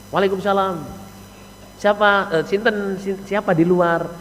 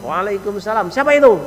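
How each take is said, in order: First: Soft, courteous "who's outside"; acted well-mannered wife at the door; polite wife. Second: Curt, high-pitched "who's there"; acted coarse-mannered wife at the door; rude wife. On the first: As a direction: answer the greeting gently and pleasantly. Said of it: "Bahasanya sopan, enak, Saudara". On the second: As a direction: answer the greeting brusquely, rising sharply in pitch. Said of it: "bahasanya cewek ini jangan kau wasar".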